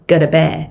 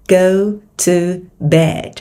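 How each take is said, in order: First: It is said quickly and connected. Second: It is said at a normal, careful speed.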